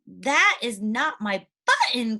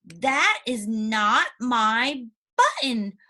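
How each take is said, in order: First: Slow, lightly upset reading; a touch of tears, slowly; mild cry. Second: Slow, drawn-out upset cry; cried. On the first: Teacher shows the class Toad crying, mildly. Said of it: "if you're crying". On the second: Teacher rereads Toad's line, crying it slowly. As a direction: stretch it out like Toad near tears. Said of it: "we can see here that he said". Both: Shown as a demonstration.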